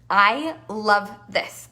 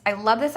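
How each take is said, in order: First: Slow savoring. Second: Said in the usual way. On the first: Real, not acted.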